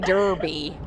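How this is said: It is said with an American accent.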